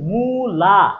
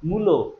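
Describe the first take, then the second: First: The word ends with an a vowel. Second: The word ends with an o vowel. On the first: "মু এবং লা দুইটা দুই অ্যাকসেন্টে উচ্চারণ করতে হচ্ছে" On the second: "মুখটাকে অত বেশি বিকৃত করা লাগছে না"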